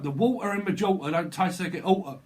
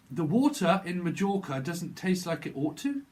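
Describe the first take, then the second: First: Broad Cockney, louder and higher; exaggerated London accent, punched out. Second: Mock-posh English accent with careful words; put-on received pronunciation, higher than usual; proper English pronunciation. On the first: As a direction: drop the t's like a Cockney in "water" and "oughta". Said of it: "You're in London".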